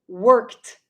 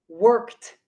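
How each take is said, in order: Both takes have the same delivery.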